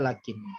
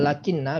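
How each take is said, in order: First: It ends with a single light n. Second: It ends with a doubled n and a vowel. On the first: The following noun takes the nominative case. "diringankan bacaannya, mukhaffafah menjadi lakin" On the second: The following noun takes the accusative case. "ini dibaca lakinna"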